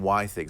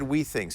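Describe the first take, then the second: First: The first syllable sounds like 'why'. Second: The first syllable sounds like 'we'. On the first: "I've been saying why things" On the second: "I noticed he said we things"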